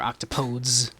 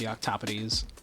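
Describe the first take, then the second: First: It is said with an English-style pronunciation. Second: It is said with a Greek-style pronunciation.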